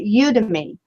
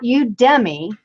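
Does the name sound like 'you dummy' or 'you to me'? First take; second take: you to me; you dummy. First: It sounds like the phrase 'you to me'. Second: It sounds like the phrase 'you dummy'. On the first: The speaker calls it right. "it's like you to me" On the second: The speaker calls it wrong. "that sounds like you dummy"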